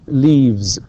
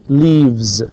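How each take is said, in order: The two takes are said the same way.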